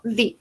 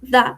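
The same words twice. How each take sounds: First: The vowel is long and bright, like 'dee'. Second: The vowel is short and neutral, like 'duh'. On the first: It comes before a word starting with a vowel. "una palabra que empieza por vocal, digo the" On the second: It comes before a word starting with a consonant. "si tengo una palabra que empieza por consonante, digo the o de"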